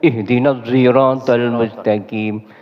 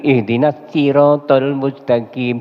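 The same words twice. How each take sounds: First: The word siratal begins with a z sound. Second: The word siratal begins with a plain s sound. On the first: "bisa juga dibaca dibaca zai" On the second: "Bisa juga dibaca sin"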